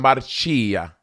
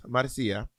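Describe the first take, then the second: First: "Marcia" said as mar-CHEE-a; Italian pronunciation. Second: "Marcia" said as mar-SEE-a; soft "Marcia" with an s sound in the middle; Spanish pronunciation. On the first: Offering the Italian version, Marcia with a ch. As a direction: stretch "Marcia" with a ch sound in the middle. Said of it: "If it was Italian". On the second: Clarifying the name was Spanish, soft mar-SEE-a. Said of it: "I was in Spanish". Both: Shown as a demonstration.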